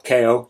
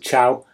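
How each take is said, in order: First: It is said as two syllables, starting with k. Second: It is said as one syllable, starting with ch. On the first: The speaker calls it wrong. "not K O" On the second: The speaker calls it right. "I believe they're pronounced as"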